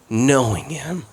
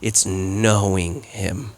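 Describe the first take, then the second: First: Said in the usual way. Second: "knowing" drawn out slowly and softly, the point of the sermon; slow stress on knowing. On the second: Shown as a demonstration. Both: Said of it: "is not knowing about him".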